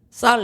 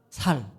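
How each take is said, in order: First: The first consonant is tense and hard. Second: The first consonant is soft and plain. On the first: This is the intended standard pronunciation. The speaker calls it right. "쌀 해봐" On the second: The speaker's home dialect shows through. The speaker calls it wrong. "발음이 안 되는 거예요"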